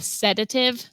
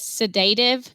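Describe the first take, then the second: First: It does not sound like the word sedate. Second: It sounds like the word sedate plus -ive. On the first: The speaker calls it right. "but it's really called a sedative" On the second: The speaker calls it wrong. "I read it as sedative because, you know, it sedates you"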